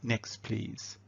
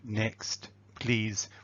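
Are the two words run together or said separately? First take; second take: run together; separately. First: The two words are joined smoothly together. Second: Each word is said separately with heavy emphasis. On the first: The speaker calls it right. "we join those words together" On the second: The speaker calls it wrong. "That level of emphasis is um, a bit strange"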